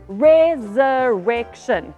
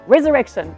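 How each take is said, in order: First: The word is said at a slow pace. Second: The word is said very fast.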